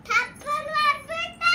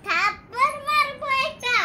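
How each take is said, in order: First: Much higher and louder, fast squeal; loud playful threat. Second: Higher and louder, shouting the threat; loud playful threat. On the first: Child squealing a cheeky threat at mother, loud. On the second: Child shouting a pretend threat at mother, loud. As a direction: yell it at mum in play. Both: Pretend.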